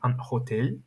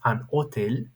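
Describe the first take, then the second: First: The H at the start is pronounced. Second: The H at the start is silent. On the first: The speaker calls it wrong. "Do not pronounce the H, it's not an hotel" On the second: The speaker calls it right. "it's an hotel"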